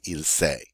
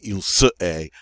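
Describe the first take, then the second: First: Se loses its vowel and joins est. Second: Se is said fully before est. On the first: The speaker calls it right. "I'm just going to say il s'est" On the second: The speaker calls it wrong. "I'm not going to say il se est"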